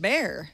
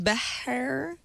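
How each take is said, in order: First: The name is said like the English word 'bear'. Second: The name is said with a Spanish pronunciation. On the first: "how do you get bear?" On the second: "that would be the Spanish pronunciation"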